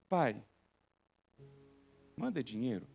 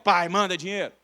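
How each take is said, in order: First: It is said in a sweet, gentle tone. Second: It is said in a rude, demanding tone.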